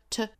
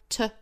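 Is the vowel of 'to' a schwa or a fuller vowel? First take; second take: fuller vowel; fuller vowel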